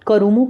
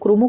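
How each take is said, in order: First: A short vowel separates the k and r. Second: The k and r are joined without a vowel. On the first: "कई लोग इसको अ, करूमू के नाम से pronounce करते हैं" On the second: "कोई लोग क्रूमू कहते हैं"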